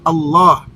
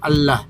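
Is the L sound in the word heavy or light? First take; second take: heavy; light. First: The L is said thick and heavy. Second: The L is said thin and light. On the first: The speaker calls it right. "dibaca tebal Allah" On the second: The speaker calls it wrong. "bukan Allah"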